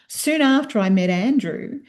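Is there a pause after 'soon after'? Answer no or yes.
no. It runs on with no pause after 'after'. The meeting is the start of a longer sentence. The speaker calls it wrong.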